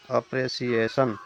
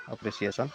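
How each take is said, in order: First: अप्रिसिएशन slowly broken into five syllables. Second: Said in the usual way. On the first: Shown as a demonstration. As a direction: stretch out अप्रिसिएशन, one syllable at a time. (अप्रिसिएशन को धीरे, अक्षर-अक्षर तोड़कर बोलें) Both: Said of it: "इसको जैसे ही आप बोलिएगा".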